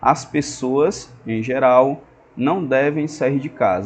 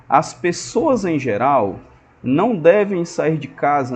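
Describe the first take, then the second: First: There are short pauses around 'em geral'. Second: It runs through 'em geral' without pausing. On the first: People generally should not leave home. "se eu colocar a vírgula" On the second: Most people should not leave home. "Se você não colocar a vírgula, fica assim"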